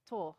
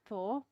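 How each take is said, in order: First: The name begins with a plain 't' sound. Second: The name begins with a 'th' sound. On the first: "In I- in Norway, it's uh, Thor" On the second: "everyone calls him Thor"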